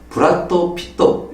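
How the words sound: It is said with a Japanese accent. "일본 사람이 하면은"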